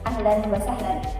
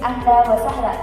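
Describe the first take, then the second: First: It is said in Standard Arabic pronunciation. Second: It is said in a Syrian accent without final l. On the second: "dialek Syria, tanpa penekanan pada huruf lam yang di akhir"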